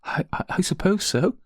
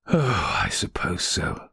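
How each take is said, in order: First: Hesitant, high-pitched stammer; tearful murmur. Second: Resigned sigh. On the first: Crying maid admits her trouble to the lady, tearful murmur. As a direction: stumble into a higher, hopeless murmur. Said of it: "she murmured". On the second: Rector giving in to his wife's goading, resigned sigh. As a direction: breathe it out as you give in. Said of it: "sighed the rector". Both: A narrator's reading.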